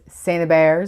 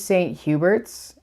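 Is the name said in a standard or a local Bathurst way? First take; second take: local Bathurst; standard. First: The name is said in a local Bathurst way. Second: The name is said in the standard way.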